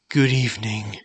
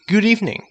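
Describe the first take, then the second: First: It is said in a tired, exhausted tone. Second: It is said in a happy, cheerful tone. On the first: It suits someone worn out at day's end. "This tone shows exhaustion" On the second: It suits a friendly greeting. "This tone shows happiness"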